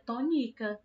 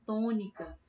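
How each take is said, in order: First: "tônica" with the middle syllable stressed, to-NÍ-ca. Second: "tônica" with the first syllable TÔ strongest; stress on TÔ. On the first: Teacher shows pupils a wrong stress, "tônica" said to-NÍ-ca. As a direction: move the weight onto NI. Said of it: "fosse o ni, a gente falaria tônica". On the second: Teacher introduces the next example word, "tônica" stressed on TÔ. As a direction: lean on TÔ, let "-nica" fall. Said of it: "Mesma coisa vale pra palavra tônica". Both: Shown as a demonstration.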